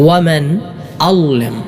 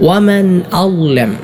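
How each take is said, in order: Both takes have the same delivery.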